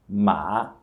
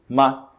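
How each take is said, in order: First: The pitch dips down and then rises. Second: The syllable is short with no tone contour. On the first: "o terceiro tom é o tom que desce e depois sobe" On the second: "sem tom, da forma como a gente pronunciaria em português"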